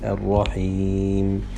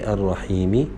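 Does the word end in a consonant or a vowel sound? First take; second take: consonant; vowel. First: The word ends on a bare consonant. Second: The word ends with a short i vowel. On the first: The speaker calls it right. "we have to say ar-rahim" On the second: The speaker calls it wrong. "if we stop, we don't say ar-rahimi"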